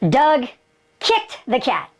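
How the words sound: The stress falls on the word kicked. He kicked it rather than doing something else to it. "He kicked him. Didn't hit him"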